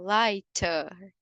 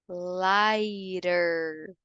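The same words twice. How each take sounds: First: The middle T is pronounced crisply and strongly. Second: The middle T sounds like a soft R. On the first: "No inglês britânico, a gente falaria lighter, forçando um pouco mais o T" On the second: "No americano, a gente traz um pouco mais como se fosse um R delicadinho"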